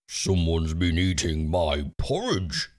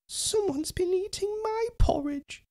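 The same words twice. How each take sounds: First: It is growled in Daddy Bear's gruff voice. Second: It is cried in Baby Bear's small voice.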